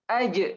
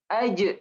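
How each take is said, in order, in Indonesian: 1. J terakhir dilepas dengan pantulan gema yang singkat. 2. J terakhir dilepas dengan pantulan gema yang singkat.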